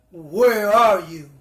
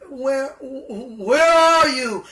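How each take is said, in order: First: Slow, louder calling out, lower; calling God. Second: Very slow, loud, higher drawn-out call; echoing call of God. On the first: God searching for hiding Adam and Eve, slow loud call. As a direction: call out slowly into the garden. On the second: God calling for hiding Adam and Eve, slow echoing call. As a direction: stretch each where like calling across the garden. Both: Acted. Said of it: "asked God".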